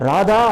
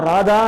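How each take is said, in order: The two takes are said the same way.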